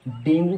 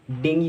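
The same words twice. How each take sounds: First: "डेंगू" ending in a long oo; "डेंगू", the popular wrong way; common mispronunciation. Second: "डेंगी" ending in ee; "डेंगी" as the taught form; correct pronunciation. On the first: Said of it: "right pronunciation डेंगू नहीं होती". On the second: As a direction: say "डेंगी" with an ee, not oo. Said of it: "इसकी right pronunciation". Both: Shown as a demonstration.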